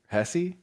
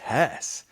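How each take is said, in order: First: The final e is pronounced as a syllable. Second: The final e is silent, one syllable. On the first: The speaker calls it right. "that's how I heard it on another podcast" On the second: The speaker calls it wrong. "I've probably been saying it wrong this whole time"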